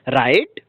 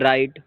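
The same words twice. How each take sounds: First: It is said excitedly, rising like a question. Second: It is said in a crying, whining tone.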